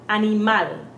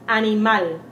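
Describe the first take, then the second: The two takes are said the same way.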